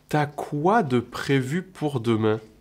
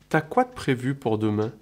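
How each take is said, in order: First: It is said at a slower pace. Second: It is said at a faster pace.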